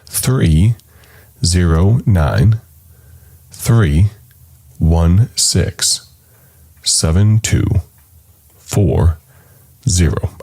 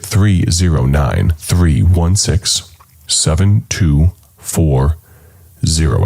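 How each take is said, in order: First: The number is said slowly. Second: The number is said fast.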